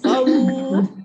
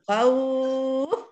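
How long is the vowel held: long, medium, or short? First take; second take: short; medium. First: The vowel is lengthened for two counts. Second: The vowel is lengthened for four counts. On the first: "khawf boleh dua empat enam"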